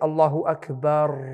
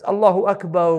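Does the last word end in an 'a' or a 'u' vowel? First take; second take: a; u. First: The last word ends with an 'a' vowel. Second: The last word ends with a 'u' vowel. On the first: The speaker calls it wrong. "They put a fatha on the end of the ra" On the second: The speaker calls it right. "There's a dhamma on the ra"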